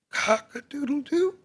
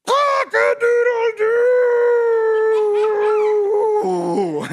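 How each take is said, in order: First: High, small rooster crow; soft tentative crow. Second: Very long, high, loud crow; triumphant full crow. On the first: Rooster first tries crowing on coop, soft and tentative. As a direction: crow timidly, rising at the end. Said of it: "he said softly". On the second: Rooster finally manages to crow, huge drawn-out crow. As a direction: belt it out and hold the last note. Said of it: "And finally". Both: A narrator's reading.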